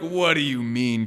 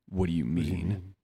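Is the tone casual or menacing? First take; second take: casual; menacing. First: It is said in a plain, casual tone. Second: It is said in a darker, menacing tone. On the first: "He's like" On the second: "But he's more like"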